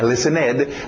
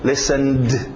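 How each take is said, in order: First: The ending is said as an extra syllable. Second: The ending is a plain D sound. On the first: The speaker calls it wrong. "Não é listened" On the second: The speaker calls it right. "No caso aqui, um D"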